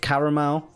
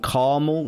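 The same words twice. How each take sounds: First: It is said with a British pronunciation. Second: It is said with an American pronunciation. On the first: "instead of" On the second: "they say um, caramel"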